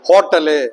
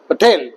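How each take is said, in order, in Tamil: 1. வார்த்தை ஒரு வவல் சேர்த்து இழுக்கப்படுது. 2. கடைசி கன்சோனன்ட்ல வார்த்தை கட் ஆகுது.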